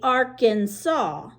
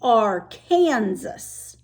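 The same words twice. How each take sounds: First: The name ends with an 'aw' sound. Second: The name ends like the word Kansas. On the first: The river is being named as it is in Arkansas. "when it's in Arkansas, you say it like that" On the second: The river is being named as it is in Kansas. "when you get to the Kansas border, it's called the Arkansas River"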